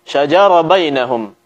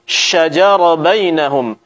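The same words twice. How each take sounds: First: The sh before j is weak and faint. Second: The sh before j is firm and fully hissed. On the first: The speaker calls it wrong. "Lemahnya pengucapan sifat daripada shin" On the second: The speaker calls it right. "Kita baca dengan tegas"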